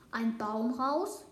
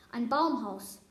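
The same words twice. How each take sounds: First: Slow, rising question on "Baumhaus"; incredulous question. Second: Louder "Baumhaus" that falls at the end; matter-of-fact answer. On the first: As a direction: draw out "Baumhaus" and let it climb into a question. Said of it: "fragte sie". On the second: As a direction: state "Baumhaus" firmly as a statement. Answering the crow's doubting question. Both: A narrator's reading.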